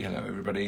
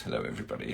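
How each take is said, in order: First: Said in the usual way. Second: A low rumbling greeting; deep low hello. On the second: Real, not acted. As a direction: drop the voice way down and soft. Greeting viewers twice.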